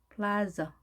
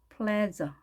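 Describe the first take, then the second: No difference in how they are said.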